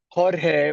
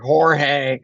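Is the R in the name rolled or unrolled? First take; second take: rolled; unrolled. First: The R in the name is rolled. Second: The R in the name is not rolled. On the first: This is the proper Spanish pronunciation. The speaker calls it right. "Jorge would be how you say it" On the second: This is how non-Spanish speakers attempt it. The speaker calls it wrong. "a lot of people don't know really how to roll their R's very well, so they're always like"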